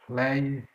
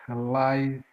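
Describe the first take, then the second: The two takes are said the same way.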